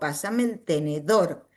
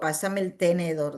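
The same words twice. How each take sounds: First: The stress in tenedor is on the last syllable. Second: The stress in tenedor is on the middle syllable. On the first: The speaker calls it right. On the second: The speaker calls it wrong. "no digo"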